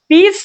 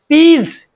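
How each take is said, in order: First: The word ends with an s sound. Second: The word ends with a z sound. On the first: The speaker calls it wrong. "पीस नहीं पढ़ोगे" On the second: The speaker calls it right. "उच्चारण में एस की ध्वनि क्या निकलेगी, ज"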